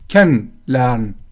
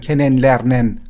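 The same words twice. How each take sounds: First: The -en endings are reduced and swallowed. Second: The -en endings are pronounced fully and clearly. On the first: The speaker calls it right. "مثلا میگن" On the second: The speaker calls it wrong. "نمیگن"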